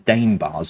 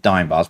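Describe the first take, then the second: First: The vowel sounds like 'ay', as in dame. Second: The vowel sounds like 'eye', as in dime. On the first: Some other people say it this way. "some people pronounce them as dame bars" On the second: This is the speaker's usual pronunciation. "I've always known them as dime bars"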